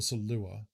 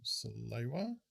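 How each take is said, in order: First: Salua? said sa-LU-a, no w sound, asked with a rise; saying Salua. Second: Salewa said in three syllables, sa-LE-wa, with a w sound in the middle; saying Salewa. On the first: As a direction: run the vowels together as Salua, a questioning lift at the end. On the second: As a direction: pronounce it Salewa, leaning on the second syllable. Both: Shown as a demonstration. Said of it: "Lawfoot says Slur is Italian and pronounced like how you said it".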